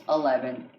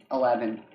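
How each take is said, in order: Both takes have the same delivery.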